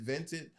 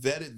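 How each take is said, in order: First: "vented" with an added n; vetted as vented. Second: Said in the usual way. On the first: Shown as a demonstration. Owning his slip to the host, "vented" with an n. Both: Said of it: "Same thing to me".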